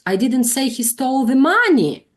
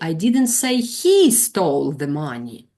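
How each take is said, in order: First: The stress falls on the word money. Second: The stress falls on the word he. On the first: The focus is on what was stolen. The speaker calls it wrong. "just stress this word" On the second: The focus is on who stole it. The speaker calls it right. "We are talking about the person who stole the money"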